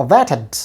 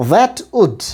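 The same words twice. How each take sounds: First: THAT'D as 'that-ud', very short schwa before D; contracted form. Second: Said in the usual way. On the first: Shown as a demonstration. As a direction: shrink 'that'd' to a stressed 'that' plus tiny 'ud'. ('that'd', খুব ছোট শোয়া দিয়ে) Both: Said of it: "উচ্চারণ হবে that'd".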